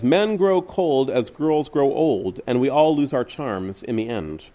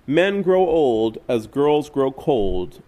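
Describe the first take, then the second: First: Sung, slow, shifted voice for the lyric; sung, set the reversed lyric apart in a new voice; sung, slow, altered voice for the flipped lyric; sung, song line in another voice. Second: Slow, deliberate verse line; slow recitation of a song line; slow recited lyric. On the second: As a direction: lay out each word slowly. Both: Retold or imitated. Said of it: "a song says".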